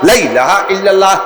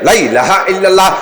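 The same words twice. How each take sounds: No difference in how they are said.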